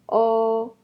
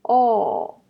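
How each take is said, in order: First: The pitch stays high and level. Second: The pitch falls sharply from high to low.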